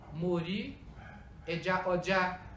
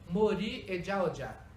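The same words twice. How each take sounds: First: The last word carries the tones of 'head cloth'. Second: The last word carries the tones of 'market'. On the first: I saw fish on the head cloth. "eu vi peixe no pano de cabeça" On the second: I saw fish at the market. "eu vi peixe na feira"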